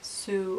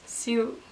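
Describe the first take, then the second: First: The name is said with an American pronunciation. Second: The name is said with its native pronunciation. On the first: Americans get the name wrong. The speaker calls it wrong. "they're gonna be like Sue" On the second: This is how the name is really said. The speaker calls it right. "It's Sue"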